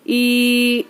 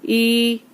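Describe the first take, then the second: First: The vowel is drawn out far too long. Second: The vowel is held for one short beat. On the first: The speaker calls it wrong. "ई ऐसे नहीं, इतना ज्यादा नहीं।" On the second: The speaker calls it right. "ई एक अलिफ के बराबर।"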